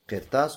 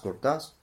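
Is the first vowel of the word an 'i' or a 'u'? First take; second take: i; u. First: The first vowel is an 'i' sound. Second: The first vowel is a 'u' sound. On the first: "Можно говорить «киртас»" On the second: "можно говорить «куртас». И так можно"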